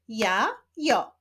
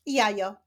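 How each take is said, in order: First: "Ja, jo" as two separate syllables, pause between. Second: Said in the usual way. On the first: Shown as a demonstration. Teacher showing pupils syllables to read, "Ja, jo" split apart. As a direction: break it up: "Ja", pause, "jo". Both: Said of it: "łączenia ich w wyrazy".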